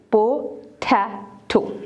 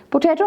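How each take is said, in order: First: potato slowly in three separate beats; teacher splitting potato piece by piece; syllable by syllable. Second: Said in the usual way. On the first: Shown as a demonstration. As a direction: pause after each syllable of potato. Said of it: "separate the syllables". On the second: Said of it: "three syllable word है".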